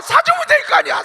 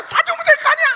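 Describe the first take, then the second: First: High, loud shout, 될 punched; hammed-up shouting mother; exasperated mother. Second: High, loud shout again; hammed-up shouting mother; exasperated mother. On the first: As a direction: yell 될 hard in exasperation. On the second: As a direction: yell the same line, still furious. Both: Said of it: "나중에 엄마가 뭐래요".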